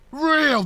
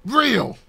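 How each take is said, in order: First: Real. higher, with a falling punch; emphatic Real. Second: Said in the usual way. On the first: Shown as a demonstration. Vlogger insisting on honesty, a higher emphatic Real. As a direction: repeat Real. higher to stress it. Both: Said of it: "repeated word".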